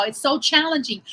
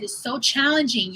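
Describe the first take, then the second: First: Challenging stressed, a bit higher; emphatic repeat. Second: Said in the usual way. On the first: Real, not acted. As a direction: lean on challenging.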